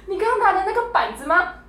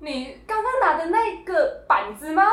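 First: Higher re-take of mom's question, a little smoother; imitating mom's disbelieving question once more; mom's question again. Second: Imitating mom stammering, high and slow with laughter; a mock-stuttering high question. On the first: Retelling mom's question at the checkout, high and incredulous. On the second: Mimicking mom stammering at the checkout in disbelief. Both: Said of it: "这个结巴是我妈结巴".

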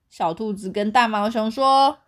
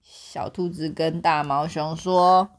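First: Said in the usual way. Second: 说 drawn out and leaned on, slowly; slow down and hit 说; slow stress on 说. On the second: Shown as a demonstration. Reading slowly to the child, stressing 说.

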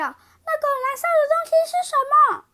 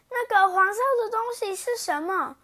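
First: Very high, loud, fast shriek; sudden shout. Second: High startled question at the sight; alarmed cry. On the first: Princess shouting at the party, high shriek. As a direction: shriek it out in alarm. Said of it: "爱哭公主突然大叫". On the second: Princess spotting the yellow thing, alarmed. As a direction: gasp out the question in sudden alarm. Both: Acted.

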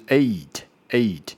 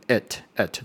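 First: Eight with the full ei glide; correct eight. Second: Eight said too fast and clipped; rushed wrong eight. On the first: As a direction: say eight the right way, gliding. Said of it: "正确的发音是eight". (正确念eight，带完整的ei滑音) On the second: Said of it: "念太快就变成eight，这是错误的". (念太快的错误eight) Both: Shown as a demonstration.

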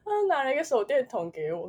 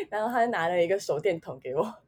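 First: A touch of real tears while laughing it off; tearful. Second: Said in the usual way. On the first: Real, not acted. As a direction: say it choked up but amused. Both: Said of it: "很好笑".

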